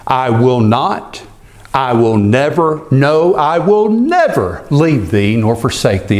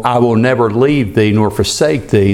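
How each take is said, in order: First: "I will not, I will never, no, I will never" with each "never" pushed harder; stress on never, building. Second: Said in the usual way. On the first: Shown as a demonstration. Preacher driving home the promise, rising stress on never. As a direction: build the emphasis, punching "never" every time. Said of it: "It's a point of emphasis". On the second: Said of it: "they tell me that it's so emphasized".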